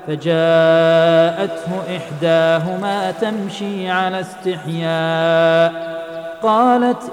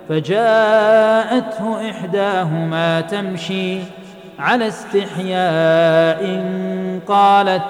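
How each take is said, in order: First: The pause comes after 'istihya', before 'qalat'. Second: The pause comes after 'tamshi', before 'ala istihya'. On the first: Her shyness describes the way she walked. "وعما على القراءة الأولى فجاءته إحداهما تمشي على استحياء فيكون الوصف بالحياء للمشي" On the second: Her shyness describes the way she spoke. "أو على الوقف الثاني"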